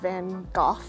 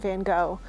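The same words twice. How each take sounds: First: The name is said the British way. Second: The name is said the American way. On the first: "in the U K, uh, I think it's pronounced Van Gogh here" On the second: "that's the American pronunciation"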